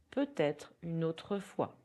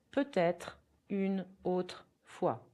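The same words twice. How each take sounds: First: Said in the usual way. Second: Slow, careful French; teacher demonstrating for learners; slow repeat-after-me. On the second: Shown as a demonstration. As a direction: model it slowly for repetition. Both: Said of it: "You can repeat".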